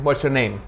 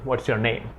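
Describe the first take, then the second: First: It is asked in a neutral, non-sexual tone. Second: It is asked in a seductive, sexual tone.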